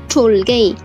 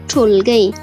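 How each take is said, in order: The two takes are said the same way.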